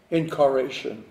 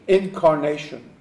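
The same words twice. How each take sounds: First: Incarnation slurred to "in-car-ation", the n lost; stumbled word. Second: Said in the usual way. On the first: Real, not acted. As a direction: fumble incarnation as "in-ca-RAY-shun". Stumbles, then repeats the word.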